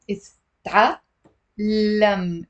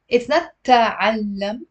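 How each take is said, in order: First: تعلم said slowly, ta clipped then a doubled lam; correct pronunciation. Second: تعلم said as the wrong, unstressed version; the mistaken تعلم she warns against. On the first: Teacher modelling the word for students, slow careful pronunciation. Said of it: "Ta-, ta". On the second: Teacher showing students the mistake, wrong pronunciation. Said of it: "I'm not saying تعلم". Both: Shown as a demonstration.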